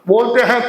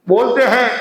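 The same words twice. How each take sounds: Both takes have the same delivery.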